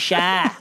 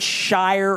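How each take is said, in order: First: The syllable ends without an r sound. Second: The syllable ends with an r sound. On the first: The speaker calls it right. "Shy, New Hampshire" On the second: The speaker calls it wrong. "They don't say Shire"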